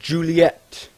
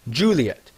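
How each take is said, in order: First: The name is said the American way. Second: The name is said the English way.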